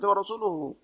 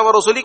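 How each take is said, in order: First: The word ends with a u vowel. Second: The word ends with an i vowel. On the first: The Messenger also disowns the polytheists. The speaker calls it right. "yang benar itu adalah dibaca wa rasuluhu" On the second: God disowns the Messenger too. The speaker calls it wrong. "Siapa kalau dibaca warusulihi kan"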